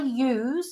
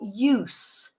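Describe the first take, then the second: First: It is pronounced the way the verb is said. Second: It is pronounced the way the noun is said. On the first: It names the action of using. "if we're think, thinking of it as the verb" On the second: It names the use of something. "the use of something"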